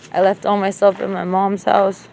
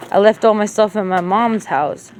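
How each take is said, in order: Both takes have the same delivery.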